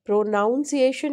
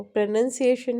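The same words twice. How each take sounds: First: "प्रोनाउंसिएशन" with "नाउन" stressed, pitched higher; wrong "noun" pronunciation. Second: "प्रोनंसिएशन" with a short "नन" in the middle; correct "nun" pronunciation. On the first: Teacher rejecting a mistake, mispronouncing it with "नाउन". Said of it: "नहीं है वो". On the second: Teacher correcting the class, pronouncing it with short "नन". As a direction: say "प्रोनंसिएशन" with "नन", never "नाउन". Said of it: "प्रोनंसिएशन है". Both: Shown as a demonstration.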